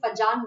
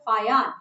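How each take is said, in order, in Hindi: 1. बीच का व्यंजन J की ध्वनि है। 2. बीच का व्यंजन Y की ध्वनि है। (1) "ये फजान नहीं होता है।" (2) "जर्मन में जे ... य के तरह प्रोनाउंस करते हैं।"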